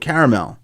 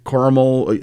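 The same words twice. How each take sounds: First: The middle vowel is pronounced, giving three syllables. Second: The middle vowel is dropped, giving two syllables. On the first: The speaker calls it right. "the pronunciation properly would be" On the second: The speaker calls it wrong. "you're kind of dropping the a in the middle"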